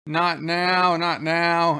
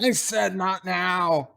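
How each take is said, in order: First: Said in the usual way. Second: Slow angry shout; yelling. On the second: Retold or imitated. O'Brien yelling at his daughter Molly, angry slow shout. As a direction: snap it out as a slow yell. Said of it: "gets up and yells".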